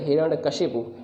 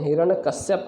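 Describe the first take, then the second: First: The name ends with the sounds 'kashipu'. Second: The name ends with the sounds 'kashyap'. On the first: The speaker calls it right. "वो गलत है हिरण्यकशिपु" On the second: The speaker calls it wrong. "लोग क्या कहते हैं हिरण्यकश्यप कहते हैं ना, वो गलत है"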